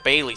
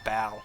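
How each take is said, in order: First: The name is said like 'Bailey'. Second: The name is said like 'Bal'. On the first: The speaker calls it wrong. "It's not Bailey" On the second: The speaker calls it right. "I think it's pronounced Bal"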